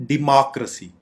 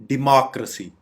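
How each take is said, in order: Both takes have the same delivery.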